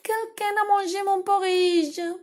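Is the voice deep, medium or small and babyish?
small babyish. It is said in a small, babyish voice.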